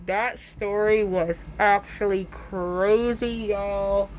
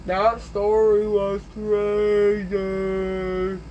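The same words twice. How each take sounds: First: Slow, stretched-out words; drawn-out delivery. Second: Extremely slow, stretched vowels; exaggerated drawl. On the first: Pretend. Storyteller reacting to own tale, slow drawn-out delivery. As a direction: draw every word out playfully. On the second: Storyteller repeating the verdict, hugely drawn-out delivery. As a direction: drag each word out as long as possible.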